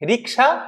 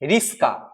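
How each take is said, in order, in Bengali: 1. k ধ্বনিটি s ধ্বনির আগে আসে। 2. s ধ্বনিটি k ধ্বনির আগে আসে। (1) "রিক্সাতে ক আগে আছে, পরে স আসে" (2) "রিস্কা প আগে আছে স, তারপরে আছে ক"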